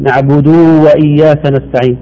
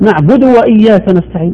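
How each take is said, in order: First: The vowel after the d is stretched long. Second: The vowel after the d is kept short. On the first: The speaker calls it wrong. "يثبت واو بعد الدال" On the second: The speaker calls it right. "بينما هي مضمومه"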